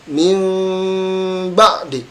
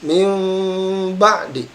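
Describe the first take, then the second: The two takes are said the same way.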